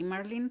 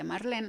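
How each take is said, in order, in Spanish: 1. El nombre se pronuncia con pronunciación inglesa. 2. El nombre se pronuncia con pronunciación española. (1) "aquí Marlene" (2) "en México se pronuncia Marlene"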